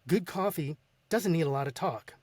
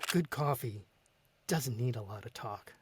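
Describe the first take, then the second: First: It is read loudly, with an upbeat pace. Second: It is read calmly, with a smile.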